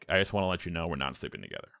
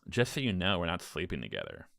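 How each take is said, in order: First: It is said firmly, setting a boundary. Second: It is said in a playful, flirty tone.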